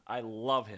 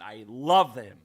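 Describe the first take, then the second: First: Said in the usual way. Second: Much louder, swooning love; gushing. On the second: Real, not acted. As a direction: gush over him loudly. Gushing about the announcer.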